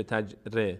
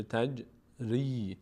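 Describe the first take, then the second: First: تج ر with ر left bare; wrong reading. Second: Slow تج ری with the kasra drawn out; correct recitation. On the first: Teacher showing the wrong reading of تج ری. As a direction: read تج ر without the kasra. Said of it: "نمیشه تج ر". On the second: Teacher showing the correct reading. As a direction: stretch the ری in تج ری. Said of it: "میشه تج ری". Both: Shown as a demonstration.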